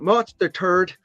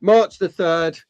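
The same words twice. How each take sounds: First: Lightly accented take on March the third, third said as "thuhd"; mock accent. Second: Said in the usual way. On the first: Shown as a demonstration. Joking to viewers about an accent, light mock accent. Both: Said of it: "if you have an accent".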